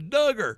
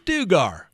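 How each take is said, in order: First: The first syllable rhymes with hug. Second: The first syllable does not rhyme with hug. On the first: The speaker calls it right. "like rhymes with hugger" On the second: The speaker calls it wrong. "you mispronounced it"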